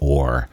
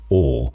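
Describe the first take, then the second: First: The final R sound is clearly pronounced. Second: The final R sound is dropped. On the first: "porque o americano ele falaria or" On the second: "O inglês ele várias vezes não pronuncia a letra R"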